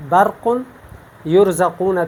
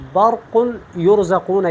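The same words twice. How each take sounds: First: برق and یرزقون with a light, thin R. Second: برق and یرزقون with thick, full R; heavy ra. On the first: Teacher contrasting it with the full reading, thin ra. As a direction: say برق یرزقون without thickening the ra. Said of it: "تو یہ باریک ہے". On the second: Teacher showing students the full reading, heavy ra. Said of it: "یہ میں نے پر پڑھا". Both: Shown as a demonstration.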